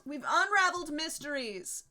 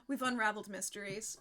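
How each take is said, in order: First: UNRAVELED swelling high and loud; higher, louder, mock-grand proclamation; triumphant repeat. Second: Said in the usual way. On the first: Real, not acted. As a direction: announce the solved mystery grandly, leaning into "unraveled".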